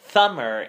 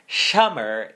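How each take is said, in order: First: The tongue pokes forward, making a th sound. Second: Air escapes over the tongue's sides on the s. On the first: "I'm producing more of a frontal um, production where my tongue is protruding" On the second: "where I had a lateral lisp for the word summer"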